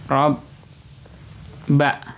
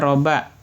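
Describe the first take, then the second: First: The b sound is doubled across two syllables. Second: The b sound is short and single. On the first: "karena diberi tanda tasydid, jadinya huruf banyak ini menjadi dua" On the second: "sebelum diberikan harokat tasydid, hanya fathah saja"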